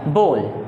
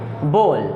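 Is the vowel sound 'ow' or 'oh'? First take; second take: oh; oh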